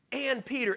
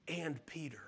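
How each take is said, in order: First: Said in the usual way. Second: Hushed whisper, almost breathless; a tender whispered aside. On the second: Acted. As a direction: lean in and whisper it like a secret. Pastor hushes angel's added words.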